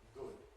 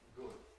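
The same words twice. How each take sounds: The two takes are said the same way.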